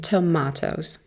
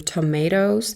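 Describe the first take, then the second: First: It is said with a British accent. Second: It is said with an American accent. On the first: "در British English میگیم" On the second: "در American English ما میگیم"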